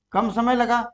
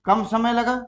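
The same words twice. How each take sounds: The two takes are said the same way.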